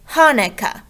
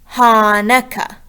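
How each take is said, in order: First: The first syllables are quick, the last held long. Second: The first syllable is held long, the rest quick. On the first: The speaker calls it right. "with the faster part in the beginning" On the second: The speaker calls it wrong. "we would be saying that as Hanukkah. But we don't say it like that"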